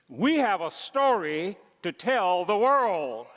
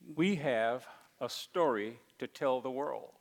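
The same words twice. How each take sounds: First: It is said energetically, with much enthusiasm. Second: It is said flatly, with little energy. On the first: The speaker calls it right. "so how about this?" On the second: The speaker calls it wrong. "I didn't say that with much gusto"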